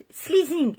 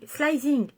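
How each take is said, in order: First: "slizing" with a long ee in the first syllable; trying English pronunciation. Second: "slizing" with an eye sound in the first syllable; trying English pronunciation. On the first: Unsure vlogger trying out an English shade name, "slizing" as SLEE-zing. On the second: Vlogger retrying an English shade name, "slizing" as SLY-zing. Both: Shown as a demonstration. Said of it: "Avec mon super accent anglais".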